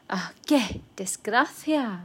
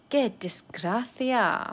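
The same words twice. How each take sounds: First: Said in the usual way. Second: Slow, drawn-out qué desgracia with a sigh; slow sighing repeat. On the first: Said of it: "demo of phrase". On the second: Shown as a demonstration. Teacher sighs over bad luck: slow and drawn out. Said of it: "slower repeat".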